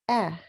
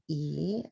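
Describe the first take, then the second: First: The vowel is short and clipped. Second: The vowel is long, like the letter name. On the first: The speaker calls it right. "I say eh. That's the short sound" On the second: The speaker calls it wrong. "I don't say E"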